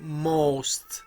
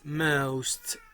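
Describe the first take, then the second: First: It is said with an American vowel. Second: It is said with a British schwa-u vowel. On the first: "If you are American, you say most" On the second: "in the British accent, it's most. Schwa with u"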